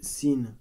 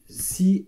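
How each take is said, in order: First: The name ends with an n sound. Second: The name ends on the vowel, without n. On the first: "qui s'appelle Sin. Très bien, S I N" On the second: "des fois aussi, elle est prononcée euh, Si, S I"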